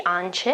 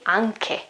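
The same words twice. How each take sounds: First: "ance" said AN-cheh; wrong soft CH. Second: "anche" said AHN-keh; correct hard K. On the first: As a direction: say "ance" with ch as in check. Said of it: "I won't say ance". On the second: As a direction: say "anche" with k, the H silent. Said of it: "I've got an H here". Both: Shown as a demonstration.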